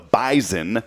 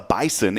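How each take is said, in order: First: The middle consonant is a buzzing Z sound. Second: The middle consonant is a hissing S sound. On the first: "the bison with the Z" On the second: "it was not the bison"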